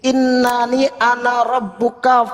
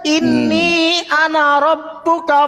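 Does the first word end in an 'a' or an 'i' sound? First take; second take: a; i. First: The first word ends with an 'a' vowel. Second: The first word ends with an 'i' vowel. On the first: The speaker calls it wrong. "Bang Moto itu bacanya inna" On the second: The speaker calls it right. "Ini loh yang benar"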